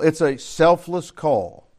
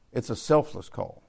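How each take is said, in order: First: "selfless call" slow and weighty; emphatic declaration. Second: Lower, softer echo of the point; quiet repeat. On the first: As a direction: drive home "selfless call", word by word. Preacher drives point, then repeats. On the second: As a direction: let it sink in quietly. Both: Real, not acted.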